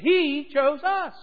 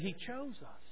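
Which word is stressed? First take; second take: He; chose. First: The word 'He' carries the stress. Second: The word 'chose' carries the stress. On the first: It was God who did the choosing. "That's good news" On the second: They were chosen rather than rejected. "meaning He didn't reject us"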